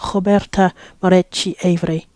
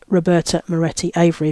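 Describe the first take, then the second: First: The name is said in a non-English accent. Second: The name is said in an English accent.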